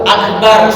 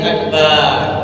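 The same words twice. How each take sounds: First: The vowel after b is kept short. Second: The vowel after b is drawn out long. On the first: The speaker calls it right. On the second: The speaker calls it wrong.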